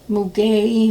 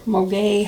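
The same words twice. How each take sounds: First: Muguet with "moo" in the first syllable; first pronunciation attempt. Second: Moguet with "moh" in the first syllable; alternative pronunciation attempt. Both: Shown as a demonstration. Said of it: "however they pronounce it".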